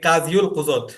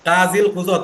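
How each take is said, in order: First: There is a 'u' vowel after 'qadi'. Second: There is no 'u' vowel after 'qadi'. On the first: The speaker calls it wrong. "কাজিও তো হয় না" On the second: The speaker calls it right. "কাজী নাকি কাজিউ পড়ি আমরা"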